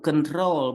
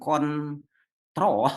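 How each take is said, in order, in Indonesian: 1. Suku kata terakhir memiliki vokal diftong ou. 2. Suku kata terakhir memiliki vokal o biasa. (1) "Control ada di tong ou" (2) "bukan kontrol"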